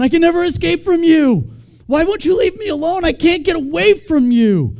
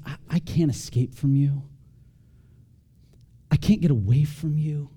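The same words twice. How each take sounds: First: High, loud, overwrought wail; smothered person. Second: Calm, unforced reading at an easy level; peaceful. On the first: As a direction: read it like someone desperately trapped, loud and high. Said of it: "read it with the wrong inflection ... smothered person". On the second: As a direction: read it as peaceful gratitude. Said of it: "super peaceful verses". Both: Acted.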